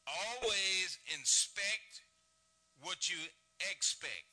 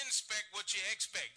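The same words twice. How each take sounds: First: Very slow, every word set apart, "Always inspect" drawn out; slow maxim. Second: "Inspect" stressed, the rest said slowly and evenly; firm restatement. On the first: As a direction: spell the saying out word by word. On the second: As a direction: repeat the motto deliberately. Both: Shown as a demonstration. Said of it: "he says".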